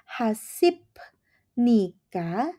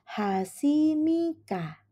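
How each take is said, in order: First: A P sound comes before 'nika'. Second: An M sound comes before 'nika'. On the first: The speaker calls it wrong. "bukannya hasip nika" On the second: The speaker calls it right. "tetapi menjadi hasimika"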